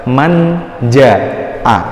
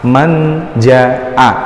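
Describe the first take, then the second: Both takes have the same delivery.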